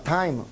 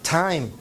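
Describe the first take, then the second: First: The t is a Spanish-style t sound. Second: The t is an English-style t sound. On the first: The speaker calls it wrong. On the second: The speaker calls it right.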